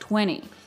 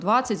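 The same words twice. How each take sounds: First: The t after the n is dropped entirely. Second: The t after the n is clearly pronounced. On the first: "звучит как 20" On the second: "слово 20"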